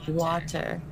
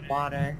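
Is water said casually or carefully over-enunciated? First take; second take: over-enunciated; casual. First: Every sound in the word is carefully articulated. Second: The word is said loosely in an everyday way. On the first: "I over-enunciated that" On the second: "I usually just say water"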